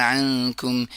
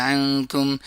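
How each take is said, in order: No difference in how they are said.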